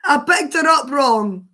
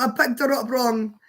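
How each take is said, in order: First: Loud, laughing confession; laughing as she admits it; louder, giggly apology. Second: Said in the usual way. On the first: Real, not acted. Laughing at own mistake.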